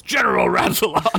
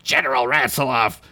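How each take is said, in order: First: High booming frog general call. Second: Said in the usual way. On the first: Acted. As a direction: bellow it like a huge frog. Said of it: "came a booming frog voice from outside". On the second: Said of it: "oh wait, that's a different voice".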